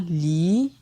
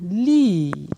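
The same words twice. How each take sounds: First: The syllable is said on a rising tone. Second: The syllable is said on a falling tone. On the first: "Ton montant" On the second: "Ton descendant"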